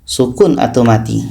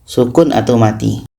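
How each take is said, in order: Both takes have the same delivery.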